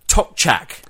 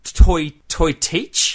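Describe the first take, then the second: First: It is said like 'tok-chak' with two short syllables. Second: It is said like 'toy-teach' with a long ee. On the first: The speaker calls it right. "the correct pronunciation for this one is the Tokchak" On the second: The speaker calls it wrong. "If you just read it off the box, it would be kind of look like toy teach"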